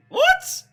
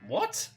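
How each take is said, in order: First: Much higher, louder shriek of disbelief; shocked shout. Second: Higher, rising question; puzzled disbelief; surprised. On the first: Viewer shocked by the scene, shrieked what. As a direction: yelp it in astonishment. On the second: Viewer startled by the scene, rising what. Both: Real, not acted. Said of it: "reacting to screen".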